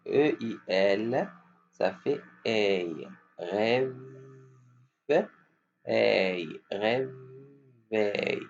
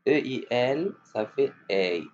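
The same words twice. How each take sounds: First: Slow model. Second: Said in the usual way. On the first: Shown as a demonstration. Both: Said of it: "Qui vont répéter?".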